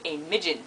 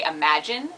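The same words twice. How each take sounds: First: New Zealand "a midgeon" for imagine; New Zealand accent. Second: Said in the usual way. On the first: Shown as a demonstration. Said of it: "they say a midgeon". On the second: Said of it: "they don't say imagine".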